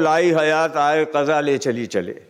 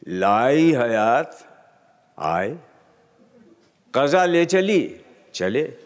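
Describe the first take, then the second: First: There is no pause after 'aaye'. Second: There is a pause after 'aaye'.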